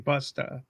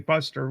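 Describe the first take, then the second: First: The word ends without an r sound. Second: The word ends with an r sound. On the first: This is how locals say it. The speaker calls it right. "We say Busta" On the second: This is how outsiders say it. The speaker calls it wrong. "We don't say Buster"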